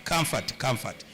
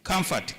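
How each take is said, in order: First: Soft, tender comfort. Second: Said in the usual way. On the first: Shown as a demonstration. A wife comforting her demoted husband, softly. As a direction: comfort said lower and softer, trailing off gently. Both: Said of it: "comforting words only".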